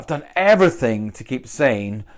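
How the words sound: The word everything is strongly stressed.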